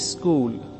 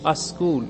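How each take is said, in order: First: An 'i' vowel is added before 'school'. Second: An 'a' vowel is added before 'school'. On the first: It marks a speaker from parts of Uttar Pradesh. "ई लगा करके बोलते हैं स्कूल" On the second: It marks a speaker from Bihar. "अ लगा करके बोलेंगे अस्कूल"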